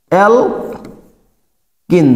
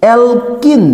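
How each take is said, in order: First: alkyne stretched very slowly, syllable by syllable; slowly drawn out. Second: Said in the usual way. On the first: Shown as a demonstration. Teacher drilling students on the name, slowly stretched. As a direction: draw out alkyne for the class to copy. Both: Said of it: "উচ্চারণ হবে কি?".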